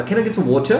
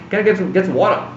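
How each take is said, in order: First: Put-on British accent, higher pitched; lightly mock British take on "water" as /wotʃə/. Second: Put-on American accent with "water" as /wɔʈə/; lightly mock American take on "water". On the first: Showing students a fake-sounding British accent. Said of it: "that's U K". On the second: Showing students a fake-sounding American accent. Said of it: "That's U S". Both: Shown as a demonstration.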